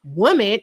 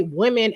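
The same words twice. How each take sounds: First: "woman" as WUM-in; "woman" starting like "wood"; mistaken pronunciation. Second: "women" as WIM-in; "women" starting like "win"; corrected pronunciation. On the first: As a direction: say "woman" with a rounded first vowel. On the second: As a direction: say "women" with a short i first. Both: Shown as a demonstration. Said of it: "how to say women as woman".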